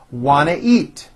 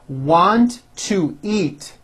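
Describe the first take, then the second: First: The words are squeezed together and reduced. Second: Each word is said separately and fully.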